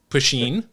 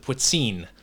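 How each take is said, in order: First: The middle S sound is not emphasized. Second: The middle S sound is clearly emphasized. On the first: "I've heard it pronounced Puccine" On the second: "you kind of emphasize the S"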